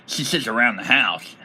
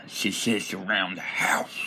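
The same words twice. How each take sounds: First: Said in the usual way. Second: Hushed, slower whisper of the punchline. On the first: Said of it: "joke first take". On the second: Shown as a demonstration. Goblin trash-talking, punchline whispered. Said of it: "joke repeated as whisper".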